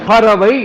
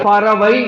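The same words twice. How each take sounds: The two takes are said the same way.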